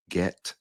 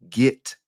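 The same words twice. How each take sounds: First: "get" said to rhyme with bet; get with short E. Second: "get" said as "git". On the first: Showing the correct form, "get" rhyming with bet. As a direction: say "get" with a clear E vowel. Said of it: "instead of get". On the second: Showing his own habit, "get" pronounced git. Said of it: "I say get instead of get". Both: Shown as a demonstration.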